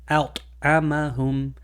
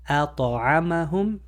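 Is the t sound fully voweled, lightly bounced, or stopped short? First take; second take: stopped short; fully voweled. First: The t is stopped with a gap, no bounce. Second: The t carries a full vowel after it. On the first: "to try to remove the qalqala, it will sound like this" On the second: "that's make giving it a one hundred percent fa- uh, fatha"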